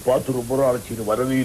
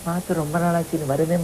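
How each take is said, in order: First: The voice is deep and full. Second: The voice is soft and nasal. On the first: "இவரு Sivaji" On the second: "MGR பேச்சு அப்படின்னா ... இந்த குரல் தான் வரும்"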